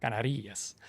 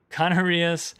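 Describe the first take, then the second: First: Canarias said the Spanish way, ka-NA-ree-as with a tapped r; corrected pronunciation. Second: Canarias said the English way, ka-NAR-ee-us with an r-coloured middle; first-guess English reading of Canarias; anglicized first try. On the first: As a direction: Canarias with stress on the second to last syllable. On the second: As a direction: Canarias read as an English word, stress on NAR. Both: Shown as a demonstration. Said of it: "Thomas is telling me how to pronounce it".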